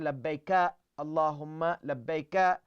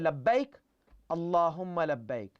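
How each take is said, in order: First: Each labbaik ends with an added vowel sound. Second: Each labbaik ends on a consonant, vowel silenced. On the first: The speaker calls it wrong. "They cannot say labbaika Allahumma labbaika. No. ... That's wrong" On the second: The speaker calls it right. "So either you say labbaik Allahumma labbaik"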